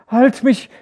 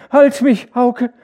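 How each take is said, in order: First: High loud desperate scream. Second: Very high, very loud feverish scream; screaming to Hauke. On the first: Feverish wife screams to be held, loud. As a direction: scream for someone to hold you. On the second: Feverish wife screams for her husband, shrieking. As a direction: shriek for your husband to hold you. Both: A narrator's reading. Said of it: "schrie sie".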